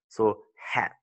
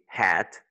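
First: Whispered word. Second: Said in the usual way. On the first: Shown as a demonstration. Teacher to learner, whispering the example word. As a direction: breathe hat out as a whisper.

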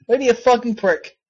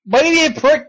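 First: Said in the usual way. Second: Higher, punchy jab with stress on be; snapping at the game. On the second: Real, not acted. Streamer telling off the game, sharp and raised. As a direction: throw the insult up at the screen.

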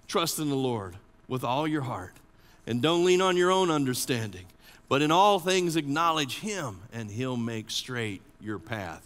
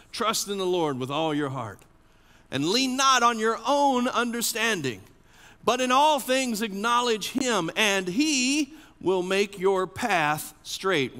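First: Hushed, reflective reading of the verse. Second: Proclaimed proverb. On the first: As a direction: say it gently, letting it sink in. Proverb repeated, second reading. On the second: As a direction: announce the scripture to the whole room. Proverb proclaimed, first reading. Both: Shown as a demonstration.

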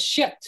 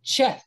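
First: "Shet" with sh first and t last; sh pronunciation. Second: "Chet" with ch first and th last; ch pronunciation. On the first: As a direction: say "Shet" opening on sh, closing on hard t. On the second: Teacher showing the proposed form of Seth, ch pronunciation. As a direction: say "Chet" like "cheth", ch as in cheese. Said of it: "with a C H". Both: Shown as a demonstration.

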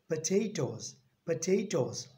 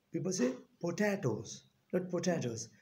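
First: "potatoes" said puh-TAY-toes with a long "ay"; weak "po", long "tay" in "potatoes"; correct potatoes. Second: "potatoes" with a short "ta" and a full "po"; the mistaken way to say "potatoes"; wrong potatoes. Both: Shown as a demonstration.

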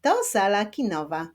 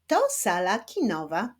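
First: A touch brisker, still clearly articulated; slightly quicker reading. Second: Measured, with words set apart; slow teaching reading. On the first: Teacher rereading with pupils at a slightly faster pace. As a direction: read it a little more connected. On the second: Teacher modelling a short sentence for children, careful slow reading. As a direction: read it unhurriedly for beginning readers. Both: Shown as a demonstration. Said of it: "ale w nieco szybszym tempie".

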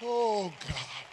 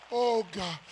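No difference in how they are said.

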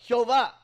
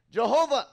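First: "Jehová" with a breathed "h" start, stress on the end; Spanish pronunciation. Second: "Jehovah" with English "j", stress on the middle; English pronunciation. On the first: Preacher showing how Spanish speakers say it, Spanish pronunciation. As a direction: say "Jehová" the Spanish way, heh-o-VAH. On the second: Preacher showing the English form of the name, English pronunciation. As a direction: say "Jehovah" the English way, juh-HO-vuh. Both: Shown as a demonstration. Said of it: "in Spanish would say".

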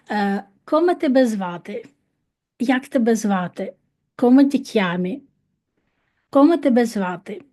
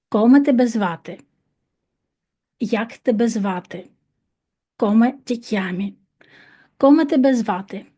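First: Said in the usual way. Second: Faster. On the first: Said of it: "щось не так". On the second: Shown as a demonstration. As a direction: drill said quicker and brighter. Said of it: "ще раз, швидше". (швидше)

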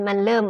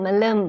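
The two takes are said the same way.

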